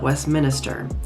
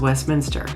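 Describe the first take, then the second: First: The name is not said the way it's spelled. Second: The name is said the way it's spelled. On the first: The speaker calls it wrong. "not Westminster. It is not spelled Westminster" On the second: The speaker calls it right. "Westminster is Westminster"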